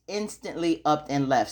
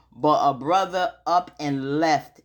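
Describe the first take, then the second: First: Said in the usual way. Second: "up and left" drawn out slow with weight; stress on up and left. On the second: Shown as a demonstration. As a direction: lean slowly on "up and left".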